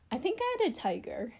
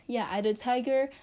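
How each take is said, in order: First: Higher, stress on "had", wondering if it's true; "I think I had a tiger" floated up as a half-question; unsure musing. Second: Said in the usual way. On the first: Real, not acted. Recalling childhood pets, unsure: higher, wondering. Wondering aloud, then confirming.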